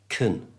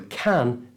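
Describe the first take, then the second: First: The vowel is reduced to a schwa. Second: The vowel is a full 'a' sound. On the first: "with the schwa sound" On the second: "replace the vowel, which is the A sound"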